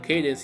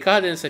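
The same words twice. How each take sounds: First: The name is pronounced in an English way. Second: The name is pronounced in an Italian way. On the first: "Cadence invece è proprio inglese" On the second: "Cadence è più italiano"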